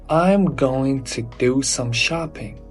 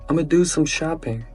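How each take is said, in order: First: 'Going to' is said in full, unreduced. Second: 'I'm going to' is squeezed into 'ama'. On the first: The speaker is not a native speaker. The speaker calls it wrong. "Native speakers never say it" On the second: The speaker is from certain regions. The speaker calls it right. "Or in some places, they just say, ... Ama"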